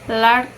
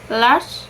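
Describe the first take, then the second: First: The word is broken into two separate parts. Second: The word is said as one unbroken syllable. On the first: The speaker calls it wrong. "not large" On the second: The speaker calls it right. "only pronounced once"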